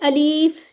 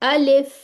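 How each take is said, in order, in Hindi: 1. दूसरा स्वर लंबा खींचा जाता है। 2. दूसरा स्वर छोटा रखा जाता है। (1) "अब इसको आपने अलीफ नहीं करना" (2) "बस इतना"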